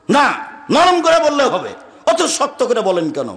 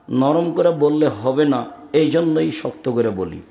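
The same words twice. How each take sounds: First: Imitating a high, shouted objection; mock shout, falling off towards the end; retold shouting. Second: Firm reply. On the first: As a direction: act out the loud complainer, pitch jumping up. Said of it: "আবার খুব চিৎকার করে বলছে". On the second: Retold or imitated. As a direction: answer the shouter slowly and steadily. His firm reply to complainer.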